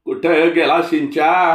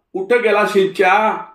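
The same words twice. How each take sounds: First: Higher, louder and slow, a scolding shout of कुठं गेला शिंच्या; old man yelling कुठं through the house; shrill Malvani old man. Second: Much higher and louder, a yelled कुठं गेला शिंच्या; old man's shout. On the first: Retold or imitated. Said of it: "चिरका Malvani हेल". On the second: Acted. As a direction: call कुठं out across the courtyard. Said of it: "असे ओरडत".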